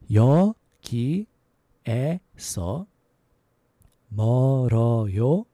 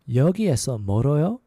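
First: The phrase is said at a slow pace. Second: The phrase is said at a fast pace. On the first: "a little slower" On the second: "a little faster"

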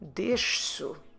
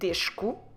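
First: The consonant before the final o is a soft s. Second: The consonant before the final o is a hard k. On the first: The speaker calls it right. "we will say deixo ... Soft instead of a hard" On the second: The speaker calls it wrong. "instead of saying deixo, which is so different from the infinitive"

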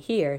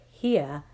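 First: The word is said in a plain accent. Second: The word is said in a Southern drawl. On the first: "Instead of saying" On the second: "Mama started talking Southern style"

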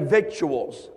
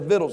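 First: The c sound in the middle is pronounced. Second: The c sound in the middle is silent. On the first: The speaker calls it wrong. "It doesn't say victuals. That's what it looks like it says" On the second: The speaker calls it right. "It says victuals, the sea silent"

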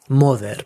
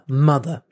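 First: The final vowel is a full, clear 'e' sound. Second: The final vowel is reduced to a weak schwa. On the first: The speaker calls it wrong. "a Spanish person that says that sees that word will pronounce it mother" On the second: The speaker calls it right. "the second syllable of mother is unstressed"

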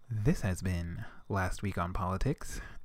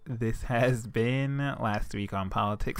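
First: It is said in a put-on announcer voice. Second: It is said in a natural speaking voice. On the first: The speaker calls it right. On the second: The speaker calls it wrong.

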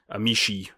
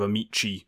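First: It is said with a Tuscan accent. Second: It is said with a standard Italian accent.

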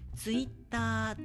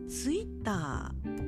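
First: The pitch stays flat without falling. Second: The pitch rises in the middle, then falls. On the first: "ツイッターっていう平板化で言われる" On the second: "ツイッターっていう中高を使うようになってきた"

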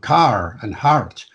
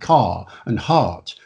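First: The R after each vowel is pronounced. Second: The R after each vowel is silent. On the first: "But here we've got" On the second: "RP is one of those rare accents where you don't pronounce the R after the vowel"

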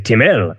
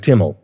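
First: The name is said with a French-sounding accent. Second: The name is said plainly, without a French accent. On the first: Other people say the name this way. The speaker calls it wrong. "They add a French accent to it" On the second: This is the name as its owner says it. The speaker calls it right. "My last name is Timmel"

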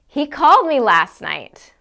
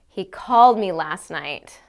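First: It is said in a surprised tone. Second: It is said in an annoyed tone. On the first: The speaker did not expect him to call. "Or I can say it as if I'm surprised" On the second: The speaker is irritated that he called. "I can say it like I'm extremely annoyed by this information"

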